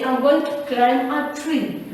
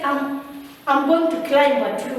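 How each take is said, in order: First: "climb" linked to "a tree" through M, no B; correct silent B. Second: "climb" in a sentence with the B sounded; wrong pronounced B. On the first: Teacher giving the correct sentence, "climb" with silent B. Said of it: "We say". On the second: Teacher showing what never to say, "climb" with audible B. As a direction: say "climb" with a released B before "a tree". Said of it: "Never say". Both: Shown as a demonstration.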